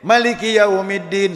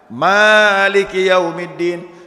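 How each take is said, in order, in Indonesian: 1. Vokal setelah m pertama pendek. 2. Vokal setelah m pertama panjang. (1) "Kalau mimnya pendek" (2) "Kalau mimnya panjang"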